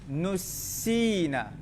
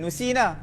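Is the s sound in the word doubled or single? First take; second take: doubled; single. First: The s sound is held long and doubled. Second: The s sound is short and single. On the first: The speaker calls it right. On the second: The speaker calls it wrong.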